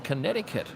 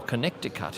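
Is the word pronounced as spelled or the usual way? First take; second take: usual way; as spelled. First: The word is pronounced the usual way. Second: The word is pronounced letter by letter as spelled.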